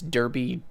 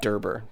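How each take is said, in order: First: The word is not pronounced like 'Derber'. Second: The word is pronounced like 'Derber'. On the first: The speaker calls it right. "It's Derby" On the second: The speaker calls it wrong. "I said Derber"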